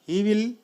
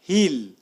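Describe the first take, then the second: First: Both words are said in full. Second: The words are merged into one short syllable.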